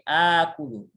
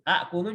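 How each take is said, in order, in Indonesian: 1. Vokal pertama panjang, tanpa hamzah. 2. Hamzah mengikuti vokal pertama. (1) "hamzah fa fi'ilnya dijadikan tanda panjang" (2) "hamzah yang pertama ini tetap"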